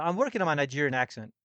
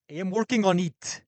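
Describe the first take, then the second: First: Said in the usual way. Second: Quick attempt at a Nigerian accent. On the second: Shown as a demonstration. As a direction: try the line in a Nigerian accent. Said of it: "That was bad".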